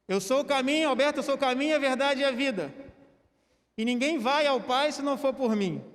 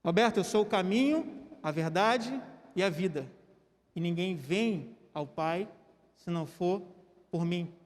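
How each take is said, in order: First: Louder, emphatic verse; a firmer, louder reading; coached intonation. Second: Calm, inviting delivery; inviting "vem" reading. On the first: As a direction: push each phrase out with clear stress. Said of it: "Vou ajudar na entonação". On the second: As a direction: stress "vem" gently as an invitation. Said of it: "Jesus falou o quê?". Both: Shown as a demonstration.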